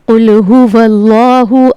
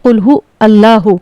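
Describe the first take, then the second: First: The words run together with a linking 'wal'. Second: The words are split, with no linking 'wal'. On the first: The speaker calls it right. "यहाँ पर वाव लाम ज़बर वल पढ़ा जाएगा" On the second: The speaker calls it wrong. "ये गलत प्रोनाउंसिएशन है।"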